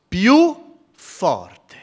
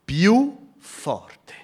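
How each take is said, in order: First: Più forte thrown out loud and high; louder, fuller. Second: More forte said with a lift; louder. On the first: Preacher repeating the cry, much louder. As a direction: belt the repeat harder. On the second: Preacher stressing how the blind man cried, louder. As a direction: push the words up and out. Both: Shown as a demonstration.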